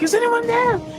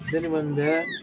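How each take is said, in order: First: It is said in an urgent, dramatic way. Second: It is said in a calm, flat way.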